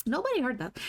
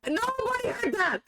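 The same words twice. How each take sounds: First: Said in the usual way. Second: High squealing laugh through the words; laugh-yelp it out, flustered; embarrassed laughing cry. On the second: Real, not acted. Covering a slip nobody heard, laughing high.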